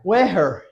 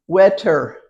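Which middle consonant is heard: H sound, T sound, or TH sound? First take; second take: H sound; T sound. First: The middle consonant is an H sound. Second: The middle consonant is a T sound. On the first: "Is that right? No, because there's no T sound" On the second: "Is that right? No"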